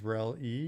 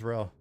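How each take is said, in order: First: The name is said with two syllables. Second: The name is said with one syllable. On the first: The speaker calls it wrong. "Jenna pronounced Rel as Rel E" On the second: The speaker calls it right. "No, Rel is Rel"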